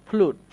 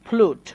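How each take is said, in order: No difference in how they are said.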